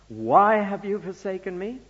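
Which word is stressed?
why. The stress falls on the word why.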